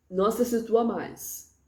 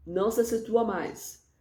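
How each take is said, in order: Both takes have the same delivery.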